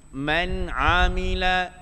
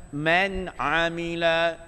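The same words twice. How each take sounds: The two takes are said the same way.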